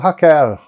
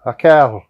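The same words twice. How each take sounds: First: The final L has a regional non-caipira sound. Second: The final L has a regional non-caipira sound.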